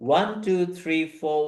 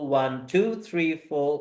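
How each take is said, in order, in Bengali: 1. বিট পড়ে প্রথম শব্দে। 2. বিট পড়ে দ্বিতীয় শব্দে। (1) "ফার্স্ট বিট" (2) "সেকেন্ডটায় বিট"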